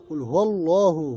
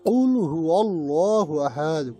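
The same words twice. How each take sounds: First: Said in the usual way. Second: কুল হু আল্লাহু আহাদ recited slowly with chanted tune; sung, recite it like tilawat; sung, slow melodic Quran recital; sung, Quranic recitation. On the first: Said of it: "কুল মানে বলো". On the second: Shown as a demonstration. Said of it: "কফ এবং কাফ এর উচ্চারণ".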